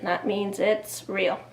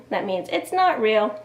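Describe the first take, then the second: First: "it's real" said slowly with a falling close; slow down and land on "it's real"; slow, settled emphasis. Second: Teacher leans on "not" in "it's not real"; stress on not. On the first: Teacher defining nonfiction for kids, slow emphatic fall. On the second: Teacher defining fiction for kids, stressing "not". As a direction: hit "not" so kids hear the difference. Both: Shown as a demonstration.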